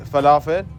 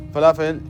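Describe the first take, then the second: No difference in how they are said.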